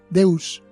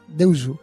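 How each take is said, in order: First: Said the Latin way, ending in an s sound. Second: Said Japanese-style, with an extra final u vowel. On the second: "pronunciada un poco a la japonesa"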